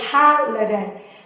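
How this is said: It is said in an American accent. "But in American English, a lot of people will say holiday"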